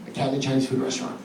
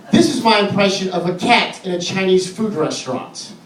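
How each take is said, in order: First: Very soft, low, fast restatement; hushed title repeat. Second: Said in the usual way. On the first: Real, not acted. Comic restates the cat bit before performing it, hushed. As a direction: toss it off quickly, low and hushed.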